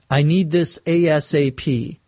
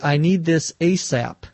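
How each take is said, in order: First: Each letter of ASAP is spoken separately. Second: ASAP is pronounced as one single word. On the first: "Sometimes acronyms are pronounced with each letter spoken" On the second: "Sometimes they're pronounced as a word"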